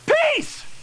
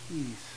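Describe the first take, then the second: First: The word is cried out loudly. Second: The word is said softly and calmly. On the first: The speaker calls it wrong. "peace is not one of those words that we cry" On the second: The speaker calls it right. "You all got peaceful when you said peace"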